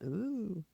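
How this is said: It is said flat and unenthusiastic.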